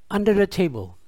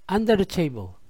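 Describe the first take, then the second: No difference in how they are said.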